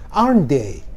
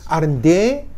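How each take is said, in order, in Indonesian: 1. Nadanya turun di akhir. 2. Nadanya naik di akhir. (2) "Kalau nadanya naik"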